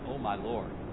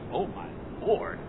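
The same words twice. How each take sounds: First: It sounds calm and reverent, like a prayer. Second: It sounds startled and disbelieving, like an exclamation. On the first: The speaker is addressing God with devotion. The speaker calls it wrong. "I don't think he said it like that" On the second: The speaker cannot believe what they are being asked. The speaker calls it right. "What are you talking?"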